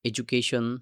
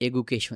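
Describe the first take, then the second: First: The consonant after the first vowel is d. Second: The consonant after the first vowel is g. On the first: The speaker calls it right. "আপনি এডুকেশন বলতে পারেন" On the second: The speaker calls it wrong. "সেটা উচ্চারণ ঠিকমতো হলো না"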